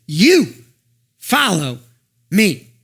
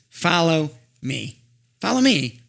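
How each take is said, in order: First: Each word set apart by pauses, YOU loud; You ... follow ... me, word by word, YOU hit hard; slow emphatic command. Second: Slow, level "Follow me" without stress on YOU; plain repeated command. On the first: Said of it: "He says". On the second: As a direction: gewoon "Follow me" zonder nadruk op "You". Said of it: "He's gonna go back to his same instructions". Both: Acted.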